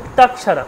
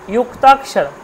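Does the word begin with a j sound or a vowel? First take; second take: vowel; j sound. First: The word begins with a plain vowel sound. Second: The word begins with a j sound. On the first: The speaker calls it wrong. "উক্তাক্ষর বলবো না" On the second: The speaker calls it right. "বাংলায় জু বলি"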